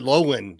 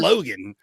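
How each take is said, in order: First: The G in the middle is dropped entirely. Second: The G in the middle is clearly pronounced. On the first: "not pronouncing the G" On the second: "British people don't say Logan"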